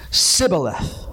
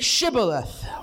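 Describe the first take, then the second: First: The word begins with an 's' sound. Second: The word begins with a 'sh' sound. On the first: The speaker could not say the word properly. The speaker calls it wrong. "For he could not frame to pronounce it right" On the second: This is the accepted form of the word. The speaker calls it right. "And they say"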